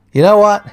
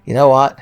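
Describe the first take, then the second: First: Much higher, louder burst; exasperated outburst. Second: Said in the usual way. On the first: Acted. Gamer fed up with the puzzle, exasperated outburst. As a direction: blow up at the puzzle. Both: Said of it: "builds to outburst".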